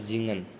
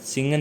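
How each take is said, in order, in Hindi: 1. यह शब्द भनभनाती z की आवाज़ से शुरू होता है। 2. यह शब्द फुफकार वाली s की आवाज़ से शुरू होता है। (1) "जय के अकॉर्डिंग आवाज़ आएगी" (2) "सिंगन नहीं पढ़ना"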